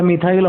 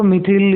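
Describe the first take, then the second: First: मिथाइल with an "eye" glide, "mi-thail"; long-vowel variant. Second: मिथिल with a short i in the second syllable, "mi-thil"; short-i pronunciation. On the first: Teacher gives students the common variant, मिथाइल said "mi-thail". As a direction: say मिथाइल to rhyme with "mile". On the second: Teacher gives students two accepted names, मिथिल said "mi-thil". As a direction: say मिथिल to rhyme with "till". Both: Shown as a demonstration. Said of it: "मिथाइल भी बोलते बहुत से लोग".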